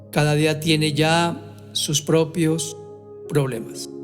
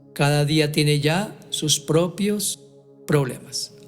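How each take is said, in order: The two takes are said the same way.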